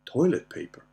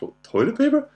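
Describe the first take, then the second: First: Said in the usual way. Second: High, loud questioning echo, imitated; rising mock-baffled repeat; incredulous daughter. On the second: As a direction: mimic a daughter's amused disbelief. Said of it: "And she's like, she laughed".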